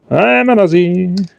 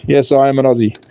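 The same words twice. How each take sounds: First: Hammed-up Australian declaration; exaggerated Aussie accent. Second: Said in the usual way. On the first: Shown as a demonstration. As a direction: lay the Aussie accent on thick. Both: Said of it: "put this accent on any better".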